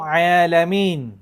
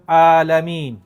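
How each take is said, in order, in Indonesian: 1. Kata itu dimulai dengan bunyi ain dari tenggorokan. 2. Kata itu dimulai dengan hamzah biasa. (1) "Yang kena baca alamin" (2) "Dia baca alamin. Batal"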